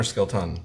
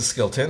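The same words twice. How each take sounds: First: "Skilton" ending in a full TAHN; full-vowel Skilton. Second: Said in the usual way. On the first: Shown as a demonstration. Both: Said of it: "Is it Skilton or Skilton?".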